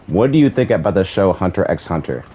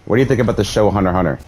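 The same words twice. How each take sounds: First: The question is spoken at a slower pace. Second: The question is spoken at a normal, quicker pace.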